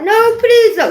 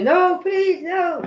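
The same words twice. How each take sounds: First: High, loud mock plea; pleading. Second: Pleading. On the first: Imitating Bill Gates crying in a vision, loud pleading. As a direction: beg for mercy. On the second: Retold or imitated. Retelling Bill Gates fighting someone, high pleading. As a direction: beg again, less forcefully. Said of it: "'Cause he was".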